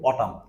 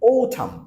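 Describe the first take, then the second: First: The first vowel sounds like 'a'. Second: The first vowel sounds like 'o'. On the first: The speaker calls it wrong. "আমরা সাধারণত বলি autumn" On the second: The speaker calls it right. "কিন্তু sound হবে o"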